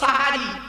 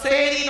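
First: The word starts with an a vowel. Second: The word starts with an e vowel. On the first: The speaker calls it right. "শব্দটা সাহারি" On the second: The speaker calls it wrong. "শব্দটা সেরি নয়"

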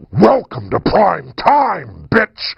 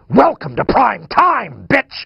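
First: It is said slowly in Freddy's voice. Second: It is said fast in Freddy's voice.

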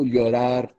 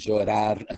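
First: It is said the Spanish-from-Spain way, 'y'-like. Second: It is said the Argentine way, 'sh'-like.

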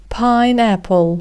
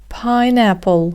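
Both takes have the same delivery.

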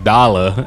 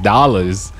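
First: The final s sound is dropped. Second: The final s sound is pronounced. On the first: "I would be like dollar" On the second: "instead of saying dollars"

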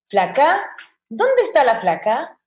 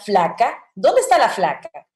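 First: The voice rises at the end like a question. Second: The voice falls at the end, blunt and rough. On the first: This is the scripted, neutral way of asking. The speaker calls it wrong. "yo nunca diría" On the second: This is how a Dominican would naturally ask. The speaker calls it right. "Aquí yo diría"

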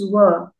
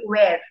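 First: It sounds like the word 'were'. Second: It sounds like the word 'where'. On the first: The speaker calls it right. "W-E-R-E is were" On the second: The speaker calls it wrong. "when people pronounce the word W-E-R-E, they usually say where"

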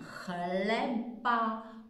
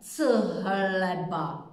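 First: The ch is said as one single sound. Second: The c and h are said as separate sounds. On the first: The speaker calls it right. "já říkám chleba" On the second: The speaker calls it wrong. "já neříkám c-hleba"

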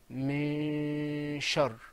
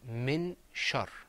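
First: The n sound in min is silenced. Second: The n sound in min is clearly pronounced. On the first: This is the Quranic recitation style. "But in the Qur'an, we said min shar. ... did you hear that noon? No. That's right, it's gone" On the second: This is the everyday reading style. "When we were reading in the newspaper, outside and away from the Qur'an, we said min shar"

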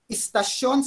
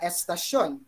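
First: The word begins with an 'i' vowel. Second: The word begins with an 'e' vowel. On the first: The speaker calls it wrong. "balbal na ugaling gawing I ang E" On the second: The speaker calls it right. "sa halip na"

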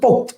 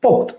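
No difference in how they are said.

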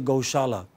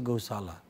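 First: The middle consonant is an 'sh' sound. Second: The middle consonant is a plain 's' sound. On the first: "We do not say gaushala" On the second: "We say gausala"

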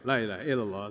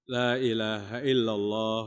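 First: It is said quickly and hurried. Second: It is said slowly and clearly. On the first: The reciter is tired and rushing. The speaker calls it wrong. "masuk gigi dua sudah mulai kencang" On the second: The words can still be heard properly. The speaker calls it right. "nang kawa didengar bujur-bujur"

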